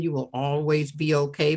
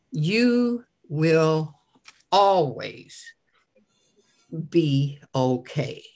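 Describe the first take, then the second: First: Said in the usual way. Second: YOU, WILL, ALWAYS, BE OKAY slowly, each weighted with pauses between; stress on every word. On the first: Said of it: "say it over and over again". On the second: Shown as a demonstration. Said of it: "how to stress the word".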